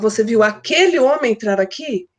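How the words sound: The emphasis falls on the words aquele homem. The question is whether it was that particular man. "Eu quero saber se é aquele homem"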